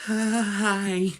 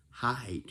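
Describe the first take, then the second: First: High, loud "Hi" broken into pulses; stuttered HI. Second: Said in the usual way. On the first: Shown as a demonstration. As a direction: stutter hard on the start of "Hi". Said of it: "you sound like this".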